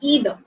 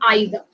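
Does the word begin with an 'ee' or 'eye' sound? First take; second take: ee; eye. First: The first vowel sounds like 'ee'. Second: The first vowel sounds like 'eye'. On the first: "in American English, you say either" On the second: "British English, we pronounce it as either"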